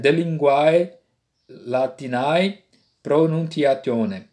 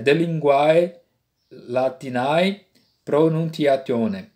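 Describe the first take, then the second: First: The Latin is read with restored classical sounds. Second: The same.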